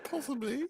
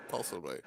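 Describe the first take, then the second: First: High, questioning hint of Japanese accent; mock Japanese accent. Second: Lower, falling "Possibly"; lower answer. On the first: Co-host wondering about his accent, mock Japanese accent. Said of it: "Is he doing a Japanese?". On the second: Pretend. Co-host answering his own question, lower falling voice. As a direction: answer yourself, dropping the pitch on "Possibly". Second take, dropped lower.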